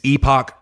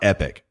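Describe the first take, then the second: First: The word sounds like 'epoch'. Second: The word sounds like 'epic'. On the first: The speaker calls it right. "It's Epoch or A P O C" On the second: The speaker calls it wrong. "It's not Epic"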